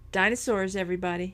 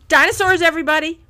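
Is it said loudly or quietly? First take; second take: quietly; loudly. First: It is said more quietly. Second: It is said loudly.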